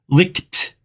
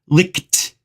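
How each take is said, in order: Both takes have the same delivery.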